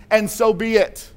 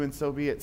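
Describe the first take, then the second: First: And so be it, said higher and louder, leaning on "so", slowly; preacher spelling out "And so be it" with weight on "so"; stressed, slow and louder. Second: Soft prayer ending. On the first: Preacher explaining amen to the congregation, "And so be it" stressed slowly and loud. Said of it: "it simply means". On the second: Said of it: "and we say". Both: Shown as a demonstration.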